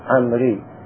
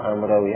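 First: No w sound is pronounced before the ending. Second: A w sound is pronounced before the ending. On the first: The speaker calls it right. "هذه الواو لا تلفظ في عمر" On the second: The speaker calls it wrong. "لا مو عمروي"

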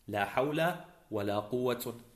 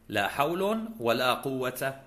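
First: The first ends in -a, the second in -un. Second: The first ends in -un, the second in -a. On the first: "وفتح الأول ورفع الثاني" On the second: "رفع الأول وفتح الثاني"

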